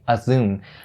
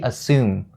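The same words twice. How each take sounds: First: The second syllable starts with a Z sound. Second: The second syllable starts with an S sound. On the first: The speaker calls it wrong. "you can't say" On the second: The speaker calls it right. "it has to be assume"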